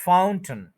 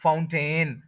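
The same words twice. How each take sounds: First: फाउंटेन as FOUN-tn, stress on the first syllable; corrected pronunciation. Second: फाउंटेन with a clear 'ten' at the end; common mispronunciation. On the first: Teacher applying the rule, फाउंटेन with reduced 'tn'. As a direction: drop the vowel between t and n in फाउंटेन. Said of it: "तो ये बनेगा". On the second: Teacher naming the usual form, फाउंटेन with full-vowel 'ten'. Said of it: "ए और आई है वो नहीं". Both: Shown as a demonstration.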